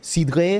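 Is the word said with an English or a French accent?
French. The word is said with a French accent.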